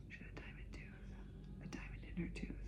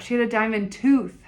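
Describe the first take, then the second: First: Hushed confidential aside; amazed whisper. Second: Said in the usual way. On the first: Real, not acted. Telling viewers about the woman's diamond tooth, whispered. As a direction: whisper it like a secret.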